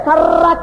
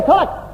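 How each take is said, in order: First: It is said in a rustic Hindu manner. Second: It is said the speaker's group's refined way.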